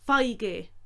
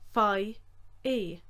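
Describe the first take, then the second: First: The word ends in a g sound. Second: The word ends in a vowel sound.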